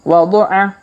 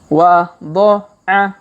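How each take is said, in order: First: The syllables are read quickly and joined. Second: The syllables are read slowly and separately. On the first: "Kalau dipercepat" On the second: "kita baca pelan-pelan"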